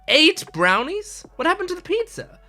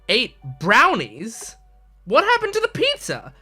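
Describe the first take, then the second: First: The stress falls on the word eight. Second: The stress falls on the word brownies. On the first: The speaker calls it wrong. "a fine performance of that line, but it's the wrong way" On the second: The speaker calls it right. "Instead, you have to go"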